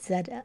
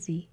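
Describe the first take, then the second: First: The letter name is said the Canadian way. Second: The letter name is said the American way. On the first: "I'm saying Z because I'm Canadian" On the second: "for my American viewers out there, you'd say Z"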